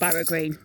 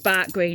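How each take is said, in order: First: The first word sounds like two syllables, barrow. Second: The first word sounds like one syllable, bark. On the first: The speaker calls it wrong. "not Barrow Green" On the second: The speaker calls it right. "It's Bark Green"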